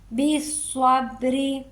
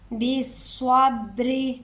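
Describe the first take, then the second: The two takes are said the same way.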